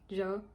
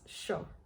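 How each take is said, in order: First: It starts with a 'y' or 'j' sound. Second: It starts with an 'sh' sound.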